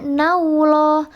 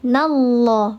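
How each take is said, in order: First: The vowel before the L glides toward 'u'. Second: The vowel before the L is a plain 'a'. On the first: The speaker calls it wrong. "bukan juga naullah" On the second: The speaker calls it right. "maka dibacanya tebal. Dia nallah"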